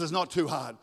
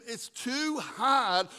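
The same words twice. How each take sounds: First: Plain, firm reply; God's firm answer. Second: High, drawn-out mock protest; doubting complaint. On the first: Acted. God answers the struggling believer, firm correction. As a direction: answer the doubt in a settled voice. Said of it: "But God says". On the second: Struggling believer protests to the Lord, drawn-out complaint.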